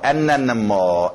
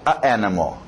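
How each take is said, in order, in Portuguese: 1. Um som de n liga-se suavemente a 'animal'. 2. Duas vogais se encontram sem um n entre elas. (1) "colocar um Nzinho nesse A... Flui melhor" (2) "Flui melhor do que a, a, a animal"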